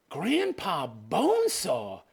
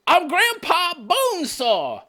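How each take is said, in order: First: Said in the usual way. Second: High, drawn-out mimicking cry; Grandpa Bonesaw. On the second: Reactor imitating the attacker announcing himself, mock yell. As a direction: stretch it out in a hammed-up high voice. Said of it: "He's Grandpa Bonesaw. Did you hear that?".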